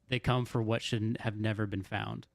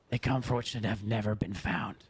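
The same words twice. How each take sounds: First: It is said in the speaker's ordinary voice. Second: It is said in a put-on character voice.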